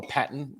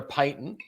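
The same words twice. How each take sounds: First: "patent" said PAT-ent, with a short A; American pronunciation. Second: "patent" said PAY-tent, with a long A; long "ay" in the first syllable of "patent"; Australian pronunciation. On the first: Shown as a demonstration. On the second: Real, not acted. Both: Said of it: "my accent's different than the American accent".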